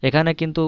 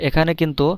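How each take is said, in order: Both takes have the same delivery.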